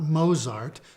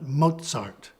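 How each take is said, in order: First: The z is said as a plain z sound. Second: The z is said as t plus s. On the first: The speaker calls it wrong. "It's not Mozart" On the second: The speaker calls it right. "pronounced as a combination of T and S"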